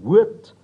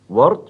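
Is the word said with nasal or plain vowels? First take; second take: nasal; plain. First: The word has strongly nasalized vowels. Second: The word has plain, non-nasal vowels.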